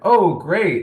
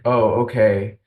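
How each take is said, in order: First: It sounds warm and enthusiastic. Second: It sounds cool and grudging.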